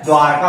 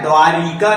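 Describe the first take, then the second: First: द्वारका said "dwaar-kaa"; two syllables in द्वारका, no "ri"; corrected pronunciation. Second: द्वारिका said "dwaa-ri-kaa"; द्वारिका with an added "ri" syllable; rejected pronunciation. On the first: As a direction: join r directly to k in द्वारका. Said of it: "द्वारका होता है". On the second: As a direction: put a short i between r and k in द्वारिका. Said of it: "द्वारिका नहीं होता है". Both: Shown as a demonstration.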